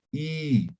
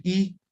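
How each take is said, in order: First: I held long, the vowel stretched; lengthened vowel. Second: Said in the usual way. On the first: Shown as a demonstration. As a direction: draw out the I to double length. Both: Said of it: "En vez de decir I".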